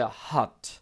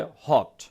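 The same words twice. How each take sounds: First: "hot" with an open "ah", like "haht"; American pronunciation. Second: "hot" with a rounded short "o"; British pronunciation. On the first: Teacher contrasting accents for learners, American "ah" in "hot". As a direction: open the vowel of "hot" wide, American style. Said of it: "আমেরিকানরা বলে". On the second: Teacher showing the British version, rounded "o" in "hot". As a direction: round the lips for the vowel of "hot", British style. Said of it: "ব্রিটিশরা বলে". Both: Shown as a demonstration.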